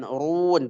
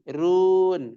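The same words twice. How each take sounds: First: "urun" with a thick, rounded r; "urun" as the mistaken thick reading; wrong heavy ra. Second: "run" with a thin, light r; long "run", r kept thin. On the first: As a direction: make the r in "urun" heavy and dark. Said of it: "Bukan urun". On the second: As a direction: say "run" without rounding the r. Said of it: "Bukan urun, tapi yubsirun". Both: Shown as a demonstration.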